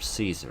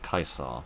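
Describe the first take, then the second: First: The name is pronounced the usual English way. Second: The name is pronounced a less English way.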